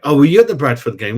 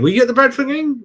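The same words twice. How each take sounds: First: Said in the usual way. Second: Pitched way up, excited to ask again; asking the Bradford game question again, eager and high; eager repeat. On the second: Real, not acted. Fan asking his mate whether he was at Bradford, eagerly and pitched high.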